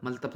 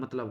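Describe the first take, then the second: First: मलतब with l before t; wrong sound order. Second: Said in the usual way. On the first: Shown as a demonstration. Teacher rejecting the misspelling, मलतब with l before t. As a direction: say मलतब with the middle sounds swapped. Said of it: "मलतब थोड़ी होता है भाई". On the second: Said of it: "मतलब होता है".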